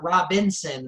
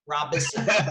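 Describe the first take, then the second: First: There is an n sound in the middle. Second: There is no n sound in the middle. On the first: The speaker calls it wrong. "there's no N. It's not Robinson" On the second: The speaker calls it right. "It's Rob Robison"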